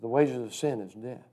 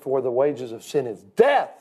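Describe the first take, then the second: First: Softer, lower delivery, no punch on death; low and soft, death falling away at the end; understated emphasis. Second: Ordinary build-up, then a big emphatic DEATH; stress on DEATH. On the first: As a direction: say it quietly, with death left unstressed. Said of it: "You know what I want them to hear". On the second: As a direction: land hard on the final word, death. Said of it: "to emphasize. So if I said". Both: Shown as a demonstration.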